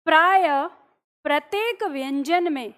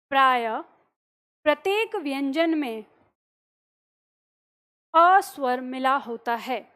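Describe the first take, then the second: First: Dictation. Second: Repeated dictation. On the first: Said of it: "अगला point आपको लिखना है". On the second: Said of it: "अगला point लिखिए". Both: Shown as a demonstration.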